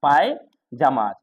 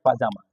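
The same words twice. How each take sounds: First: पायजामा said slowly with a clear pai-JAA-ma; British pyjama. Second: पाजामा said pa-JAA-ma, no y sound; American pajama. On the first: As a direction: stretch पायजामा out, stressing the 'पाय'. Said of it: "जबकि इधर होता है पायजामा". (पायजामा धीरे से, 'पाय' पर साफ़ ज़ोर) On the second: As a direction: say पाजामा short, without the y. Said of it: "पाजामा American में होता है". (पाजामा बिना 'य' के, अमेरिकन उच्चारण) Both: Shown as a demonstration.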